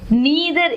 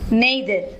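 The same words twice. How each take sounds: First: The word is said in an American accent. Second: The word is said in a British accent. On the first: "is American English" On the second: "It's British"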